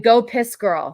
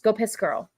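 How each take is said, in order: First: The phrase is said at a slow pace. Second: The phrase is said at a fast pace.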